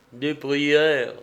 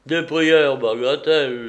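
First: Calm assurance. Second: Louder, brusque repeat of "prières"; scoffing dismissal. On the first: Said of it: "répondit Médon avec plus de calme". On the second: Neighbour answering the praying father, scoffing dismissal. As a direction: brush "prières" off loudly as nonsense. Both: A narrator's reading.

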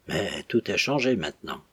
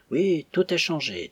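First: Said in the usual way. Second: Forced casual. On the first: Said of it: "Arlette's line, plainly read". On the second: A narrator's reading. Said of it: "d'un ton qu'il s'efforça de rendre aussi dégagé".

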